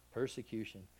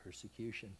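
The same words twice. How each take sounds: First: Said in the usual way. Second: Preacher lets the word sink in softly; soft, low word. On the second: Shown as a demonstration. A hushed, low word. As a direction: say it low and hushed, almost to yourself.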